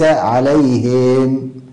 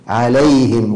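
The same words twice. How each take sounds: First: The vowel after h is stretched into ee. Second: The vowel after h is kept short. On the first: The speaker calls it wrong. "وليس عليهم" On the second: The speaker calls it right. "صاب هكذا عليهم"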